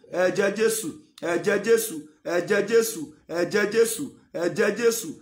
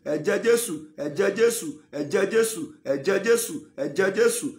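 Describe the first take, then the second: The two takes are said the same way.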